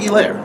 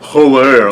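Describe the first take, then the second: First: The name starts with no H sound. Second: The name starts with a clear H sound. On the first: The name is said the way its owner says it. The speaker calls it right. "The H is silent" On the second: The speaker mocks how others say the name. The speaker calls it wrong. "they say it obnoxiously"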